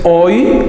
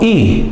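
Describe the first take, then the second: First: It is said as a glide, oi. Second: It is said as a single vowel, i. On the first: The speaker calls it wrong. "no es hoy" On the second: The speaker calls it right. "sino i"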